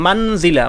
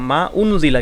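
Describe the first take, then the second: First: The two words run together without a stop. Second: A glottal stop separates the two words. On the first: The speaker calls it wrong. "মানজিলা পড়ার কোনো সুযোগ নাই" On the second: The speaker calls it right. "হামজাটাকে উচ্চারণ করলাম"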